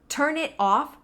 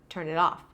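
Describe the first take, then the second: First: The words are said separately. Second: The words are linked together.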